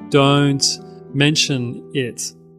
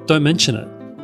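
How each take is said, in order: First: The words are separated by small pauses. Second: The words run together without any pauses. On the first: The speaker calls it wrong. "Try not to break it up. Some people say" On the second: The speaker calls it right. "it all just goes together"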